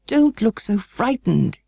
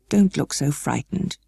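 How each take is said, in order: First: A bit higher, slow, urgent reassurance; exclaimed. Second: Slow, mildly worried reassurance. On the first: The guardian exclaiming to Mary, slow and urgent. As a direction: burst out to stop her fear. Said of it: "he exclaimed". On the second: The guardian calming frightened Mary, slow and mildly worried. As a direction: soothe her, gently concerned. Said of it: "he said in a worried voice". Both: A narrator's reading.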